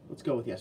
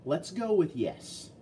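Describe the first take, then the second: First: Said in the usual way. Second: Slow, higher, mock-decisive drawl; a playful slow verdict; drawn-out yes. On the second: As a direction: stretch it out like a mock ruling. Unsure guess about the part.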